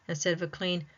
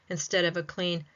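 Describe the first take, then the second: No difference in how they are said.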